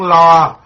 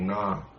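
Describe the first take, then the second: First: The word begins with an L sound. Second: The word begins with an N sound. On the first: The speaker calls it right. "Thật sự cái tiếng đó là tiếng lo" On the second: The speaker calls it wrong. "mấy bà không có phát âm cái chữ lo được"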